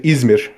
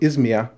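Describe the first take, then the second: First: The name is said with a Turkish pronunciation. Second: The name is said with a German pronunciation. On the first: "in Turkish" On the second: "in German"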